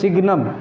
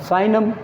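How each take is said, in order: First: The word is said with a g sound. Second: The word is said without a g sound. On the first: The speaker calls it wrong. "सिग्नम भी बोलते हैं" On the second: The speaker calls it right. "But साइनम ये pronunciation only"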